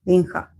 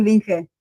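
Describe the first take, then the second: First: Linja ending in an open "ha"; pronounced Linja. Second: Linge ending in "heh"; former pronunciation. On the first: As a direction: say Linja with a final a, like "ling-ha". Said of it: "You told me how it was pronounced". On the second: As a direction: say Linge with a final e, like "ling-heh". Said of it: "Because I used to call him". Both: Shown as a demonstration.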